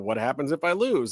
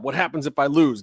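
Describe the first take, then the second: First: It is said in a quiet, subdued way. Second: It is said in a loud, pumped-up way. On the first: "he's saying it with different inflections" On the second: "pump me up"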